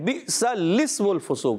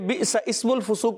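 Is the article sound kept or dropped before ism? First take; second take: kept; dropped. First: The article sound before ism is kept. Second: The article sound before ism is dropped. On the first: The speaker calls it right. "یہ ہے اجتماع ساکنین کا قاعدہ" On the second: The speaker calls it wrong. "بعض بچے بئس اسم الفسوق پڑھ دیتے ہیں"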